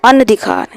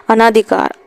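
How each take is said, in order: First: अनधिकार said with a short अ, as an-dhikaar; correct spelling read out. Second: अनाधिकार said with a long आ after अन, as a-naa-dhikaar; wrong spelling read out. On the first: Teacher gives the correct अनधिकार to students, short an-dhi. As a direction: say अनधिकार crisply with no long vowel after अन. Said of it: "ये वाला शुद्ध है". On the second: Teacher reads the wrong form अनाधिकार to students, long naa. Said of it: "अनधिकार इस तरीके से सही माना जाएगा". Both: Shown as a demonstration.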